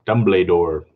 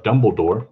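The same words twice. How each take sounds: First: "Dumbledore" said as dumb-lay-dore; altered pronunciation. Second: Said in the usual way. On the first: Shown as a demonstration. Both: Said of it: "how they say his name".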